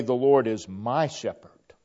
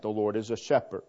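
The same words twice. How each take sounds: First: Louder, fuller awe leaning on Lord; greater wonder. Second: Mild wonder. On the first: Preacher showing the personal version, louder fuller wonder. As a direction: let the awe swell on my shepherd. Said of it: "there's even a greater tone of wonder". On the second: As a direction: say it with only a little awe. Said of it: "detect a tone of wonder in that". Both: Shown as a demonstration.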